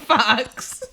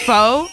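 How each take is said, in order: First: It sounds like 'fox' and ends in ks. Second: It sounds like 'foe' and ends in a vowel. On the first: The speaker calls it wrong. "not fox" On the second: The speaker calls it right. "pho is pronounced pho"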